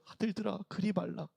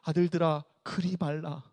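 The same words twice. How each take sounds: First: It is said in a very weak voice. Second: It is said in a plain, firm voice.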